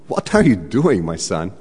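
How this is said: It is said imitating the speaker's scolding mom.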